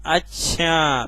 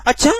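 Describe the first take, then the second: First: "अच्छा" stretched long and sinking at the end; drawn-out falling अच्छा. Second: Short "अच्छा" jumping up at the end; questioning अच्छा. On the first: Teacher showing tones within one word, drawn-out falling. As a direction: let "अच्छा" drag and fall away. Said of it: "ये बोलने के ही तो तरीके". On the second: Teacher showing another way of speaking, quick questioning. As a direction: ask "अच्छा" quickly with a rise. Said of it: "ये भी sir बोलने का तरीका अलग". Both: Shown as a demonstration.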